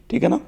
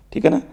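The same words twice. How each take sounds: The two takes are said the same way.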